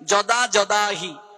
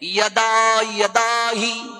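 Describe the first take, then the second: First: Each word begins with a j sound. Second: Each word begins with a y sound. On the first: This is the Bengali pronunciation. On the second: This is the Sanskrit pronunciation.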